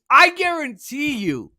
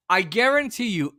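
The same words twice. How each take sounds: First: Emphatic vow. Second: Said in the usual way. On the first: Acted. Pledging strike would force concessions.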